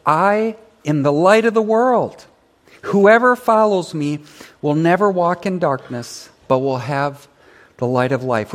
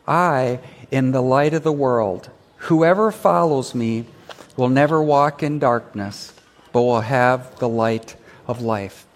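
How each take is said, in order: First: Raised, louder proclamation; proclaimed reading. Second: Said in the usual way. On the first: Shown as a demonstration. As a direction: lead the verse boldly. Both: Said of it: "Would you read that with me?".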